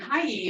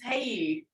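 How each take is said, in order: First: The vowel sounds like 'eye'. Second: The vowel sounds like 'ay'. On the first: The speaker calls it wrong. "I was saying it wrong" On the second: The speaker calls it right. "Because the I has the A sound"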